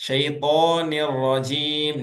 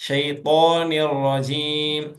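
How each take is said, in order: Both takes have the same delivery.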